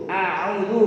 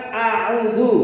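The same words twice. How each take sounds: Both takes have the same delivery.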